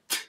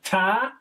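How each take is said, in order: First: The t is said alone without a vowel. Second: The t is followed by an ah vowel. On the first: The speaker calls it right. "But then you got t. So just go t" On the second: The speaker calls it wrong. "you have to shorten the ta. Throw the ah out of there"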